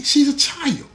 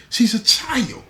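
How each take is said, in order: First: Much higher, near-crying outrage; pushed up high. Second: Higher, pressing outrage; a father's indignant cry; raised, outraged. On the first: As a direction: climb to a pleading peak on child. Repeated, pushed even higher. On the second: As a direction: stepfather outraged at the man who exploited her. Angry stepfather insists. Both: Acted.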